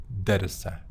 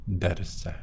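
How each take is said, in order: No difference in how they are said.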